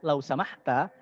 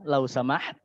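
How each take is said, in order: First: It is said in standard Arabic, final vowel pronounced. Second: It is said in Egyptian Arabic, final vowel dropped.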